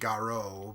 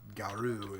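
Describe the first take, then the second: First: The word ends with an 'oh' vowel. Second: The word ends with an 'oo' vowel. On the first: This is how Japanese speakers say it. "Japanese would say Garo" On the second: This is the French pronunciation. "Garu is the correct French pronunciation"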